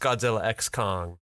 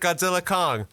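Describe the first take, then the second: First: The X is said aloud between the names. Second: The X is left out between the names. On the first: The speaker calls it wrong. "It's actually not pronounced Godzilla X Kong" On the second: The speaker calls it right. "the X is silent. You just pronounce it Godzilla Kong"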